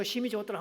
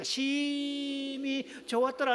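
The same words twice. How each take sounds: First: Said in the usual way. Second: Much higher, slow, stretched 좋았더라 with joy; drawn-out exclaim. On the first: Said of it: "한번 해야 되거든요". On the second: Shown as a demonstration. Pastor leading the church in a call-and-response, exultant. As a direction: sing out 좋았더라 slowly and high. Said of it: "자".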